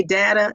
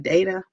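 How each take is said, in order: First: "data" said DAT-uh; pronunciation of data. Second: "data" said DAY-tuh; pronunciation of data. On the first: Host asking viewers how they say it, "data" as DAT-uh. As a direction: say "data" with a short A, as in "cat". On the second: Host asking viewers how they say it, "data" as DAY-tuh. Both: Shown as a demonstration. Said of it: "Do you say data instead of data".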